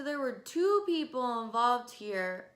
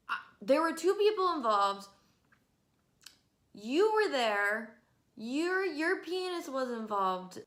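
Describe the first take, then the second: First: "two" drawn out slowly and leaned on; indignant slow emphasis on "two"; stress on two. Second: Fed-up louder retort; exasperated repeat. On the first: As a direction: spell out "two" deliberately, slow. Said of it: "repeated point". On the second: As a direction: raise it, hammer home "people". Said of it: "repeated point, louder". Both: Real, not acted.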